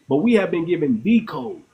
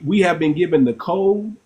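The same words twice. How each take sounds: First: "the" stressed and said as "thee". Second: Said in the usual way. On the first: Real, not acted. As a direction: hit "the" as "thee", the one and only. Contrasts "the code" with "a code.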